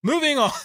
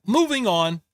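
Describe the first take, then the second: First: Laughing through "Moving on", higher and quicker. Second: Said in the usual way. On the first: Real, not acted. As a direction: give up on it mid-laugh. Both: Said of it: "Boy, we".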